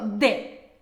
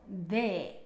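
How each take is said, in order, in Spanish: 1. La D es fuerte y dura. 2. La D es suave y ligera. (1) "No digo de, como por ejemplo en italiano" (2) "mira cómo la pronuncio"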